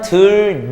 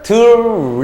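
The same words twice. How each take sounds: First: The second syllable starts with an n sound. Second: The second syllable starts with an l sound. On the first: "여기까지가 니은 첨가예요" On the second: "최종 발음은 ... 유음화로 끝납니다"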